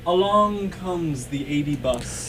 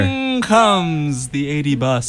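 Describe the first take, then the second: First: Soft, slow, distant; too quiet. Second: Speaking up. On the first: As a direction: murmur it from far off. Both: Pretend. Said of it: "You really gotta speak up".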